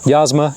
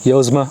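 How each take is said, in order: First: The first vowel is an 'ah' sound. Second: The first vowel is an 'oh' sound. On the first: "I'm going to keep calling it Yasma" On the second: "The actual pronunciation for Yasma is Yozma"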